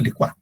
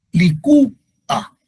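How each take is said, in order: First: "licuá" run together as li-KWÁ; fuse U and A in "licuá", stress the A; wrong diphthong. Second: "Licúa" slow, li-CÚ, pause, a; correct hiatus. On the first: Teacher showing what we don't say, wrongly fused "licuá". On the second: Teacher correcting the fused version, slow split "Licúa". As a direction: split high stressed Ú from A in "Licúa". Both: Shown as a demonstration. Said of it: "No decimos licuá".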